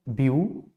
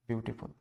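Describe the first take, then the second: First: "beautiful" broken into three separate syllables with long pauses. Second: Said in the usual way. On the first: Shown as a demonstration. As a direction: split "beautiful" as view... टी... फुल. ("Beautiful" को तीन syllable में अलग-अलग, रुक-रुक कर बोलें) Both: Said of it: "इसको अगर हम अलग अलग करें".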